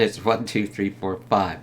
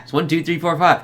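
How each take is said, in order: First: Said in the usual way. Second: Imitated excited announcement; excited retelling. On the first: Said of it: "Roland's like". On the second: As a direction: blurt the code out eagerly. Acting the excited code handover.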